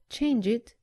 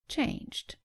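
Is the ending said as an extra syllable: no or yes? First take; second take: yes; no. First: The ending is an extra 'id' syllable. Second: The ending adds no extra syllable. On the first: The speaker calls it wrong. "Don't say change it" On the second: The speaker calls it right. "say changed"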